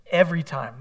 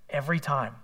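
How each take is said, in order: First: "Every time." hit louder on the repeat; emphatic echo of "Every time". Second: Said in the usual way. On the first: Shown as a demonstration. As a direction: lean harder on "Every" the second time.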